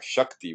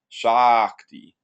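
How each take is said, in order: First: The first vowel is short. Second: The first vowel is long. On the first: It means power. "Shakti with a short a" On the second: It means she who is empowering. "this is a long ah"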